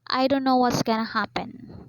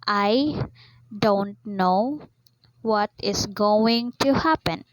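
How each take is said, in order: First: The words are contracted and reduced, like slang. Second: Each word is said fully and separately. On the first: The speaker calls it wrong. "instead of saying that word" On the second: The speaker calls it right. "you articulate the slang words in their formal shape"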